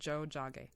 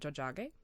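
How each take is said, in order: First: The word is said slowly and carefully. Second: The word is said at normal speed.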